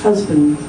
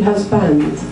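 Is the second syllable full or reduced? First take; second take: reduced; full. First: The second syllable has a weak, reduced vowel. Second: The second syllable has a full, clear vowel. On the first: The speaker calls it right. "we stress the first one, we unstress the second. It's husband" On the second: The speaker calls it wrong. "it looks like it should be husband"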